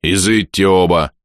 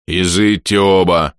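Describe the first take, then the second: First: Громкий властный приказ; прикажи, не оборачиваясь; повелительно. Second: Властный приказ. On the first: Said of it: "велел, не оборачиваясь". (властный приказ бога смерти) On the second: Бог смерти повторяет приказ. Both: A narrator's reading.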